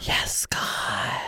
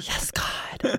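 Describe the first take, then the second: First: Breathy whisper into the mic. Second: Airy, eerie ghost whisper; haunt the mic, voice all breath. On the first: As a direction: hush it like a secret. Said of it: "I should do that in my ghost voice". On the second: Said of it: "I feel like I should do that in my ghost voice". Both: Pretend.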